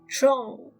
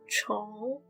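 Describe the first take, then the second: First: The syllable is said without a rising tone. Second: The syllable has a rising second tone.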